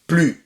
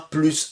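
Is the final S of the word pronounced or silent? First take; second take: silent; pronounced. First: The final S is silent. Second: The final S is pronounced. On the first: It marks a negation. The speaker calls it right. "le plus ne se prononce pas" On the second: It means addition. The speaker calls it wrong. "C'est pas plus de un plus un"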